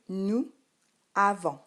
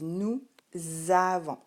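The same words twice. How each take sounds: First: The two words are said without a linking z. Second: A z sound links the two words. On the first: This is how it is written. "Lorsque tu l'écris, tu écris" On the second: This is how it is spoken. "Lorsqu'on le dit, on dit nous avons. Il y a la liaison"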